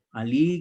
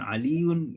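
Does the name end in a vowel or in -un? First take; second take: vowel ending; un ending. First: The name ends on a plain vowel. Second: The name ends with an added -un. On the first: This is the everyday spoken form. "Ali gitu ya" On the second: This is the full grammatical form. "bukan Aliun gitu ya"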